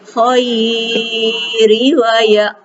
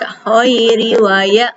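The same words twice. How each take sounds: First: The vowel in 'khairi' is stretched out long. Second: The vowel in 'khairi' is kept short and soft. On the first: The speaker calls it wrong. "nggak boleh" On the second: The speaker calls it right. "Jadi hanya dibaca"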